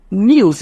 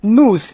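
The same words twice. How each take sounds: First: "news" as nyooz, with a y-glide; British NEWS. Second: "News" as nooz, no y-glide; American NEWS. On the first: Teacher contrasting accents for students, British "news" as nyooz. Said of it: "news is British English". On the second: Teacher contrasting accents for students, American "News" as nooz. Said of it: "News is American English". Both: Shown as a demonstration.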